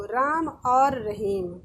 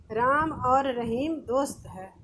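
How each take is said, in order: First: और drawn out slowly and leaned on; slow teaching example, hit और; stress on और. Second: Said in the usual way. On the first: Shown as a demonstration. Teacher showing pupils the joining word, stressing और. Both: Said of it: "जैसे वाक्य से देखो".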